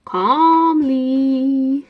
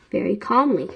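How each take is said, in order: First: "calmly" stretched out long in a raised voice; hammed-up "calmly". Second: Said in the usual way. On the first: Fan joking about the headmaster's question, hammed-up drawn-out "calmly". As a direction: draw "calmly" right out, anything but calm. Joke: hammed-up word contradicting calm.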